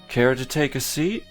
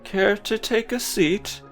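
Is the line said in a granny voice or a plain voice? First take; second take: plain voice; granny voice. First: It is said in a plain, unstyled voice. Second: It is said in a put-on old-woman voice.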